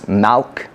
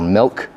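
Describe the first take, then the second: First: The vowel sounds like an open 'a' sound. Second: The vowel sounds like a short 'i' sound. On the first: This is how the word sounds in the New Mexico accent. "next down on that on that list is malk" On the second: This is the standard way to say the word. "or milk"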